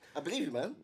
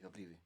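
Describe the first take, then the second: First: It sounds warm and convincing. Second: It sounds flat and unconvincing.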